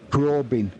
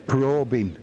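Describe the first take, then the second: No difference in how they are said.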